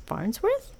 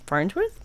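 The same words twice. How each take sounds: First: Farnsworth asked in a much higher, softer voice; rising high Farnsworth, unsure of the name; puzzled high question. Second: Said in the usual way. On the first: Real, not acted. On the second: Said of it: "the Farnsworth".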